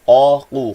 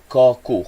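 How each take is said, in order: First: The second consonant is a deep back q. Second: The second consonant is a plain front k. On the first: The speaker calls it right. "berbaris depan qaqu" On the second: The speaker calls it wrong. "Jangan sebut qaku"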